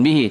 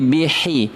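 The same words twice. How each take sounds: First: The h sound is soft and weak. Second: The h sound is sharp and crisp. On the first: The speaker calls it wrong. "Bukan bihi" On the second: The speaker calls it right. "mesti pedas"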